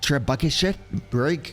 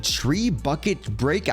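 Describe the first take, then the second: First: The first word ends with a 'sh' sound. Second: The first word ends with a hard 't' sound. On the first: The speaker calls it right. "It's like tree bucket shit break, something like that" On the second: The speaker calls it wrong. "I know that's not how you pronounce it"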